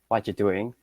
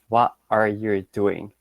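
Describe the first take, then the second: First: The words are said fast and run together. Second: The words are said fully and separately.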